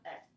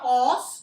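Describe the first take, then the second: First: The syllable has a weak schwa vowel. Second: The syllable has a full, clear vowel. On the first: The speaker calls it right. "the schwa sound, ... It's very weak" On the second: The speaker calls it wrong. "not os"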